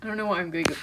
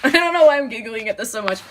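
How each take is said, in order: First: Said in the usual way. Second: Louder, quicker, laughing through it; giggling. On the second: Real, not acted. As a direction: giggle helplessly as you talk.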